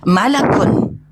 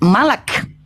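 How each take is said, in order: First: The word ends with an added final '-un' syllable. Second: The word ends after 'malak', with no final syllable. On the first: This is formal or respectful speech. "Kalau lengkap-lengkap dalam forum formal maka dibaca malakun" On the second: This is casual talk among friends. "singkat-singkat malak"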